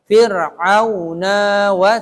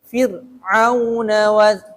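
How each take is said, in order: First: The final na vowel is drawn out long. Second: The final na vowel is short. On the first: The speaker calls it wrong. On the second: The speaker calls it right. "tapi na-nya nggak boleh dibaca panjang"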